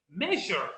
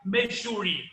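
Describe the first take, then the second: First: "Measure" as MEH-zher, falling; pronúncia correta. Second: "measure" misread as "mejúri"; pronúncia errada. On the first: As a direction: end "Measure" in a lower zh-r. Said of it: "a última palavra é jar". ("Measure" certo, com final "jâr") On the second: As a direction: say "measure" wrongly, ending in a stressed "shuri". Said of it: "não tem como eu vou começar a pronunciar". ("measure" errado, com final "júri") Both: Shown as a demonstration.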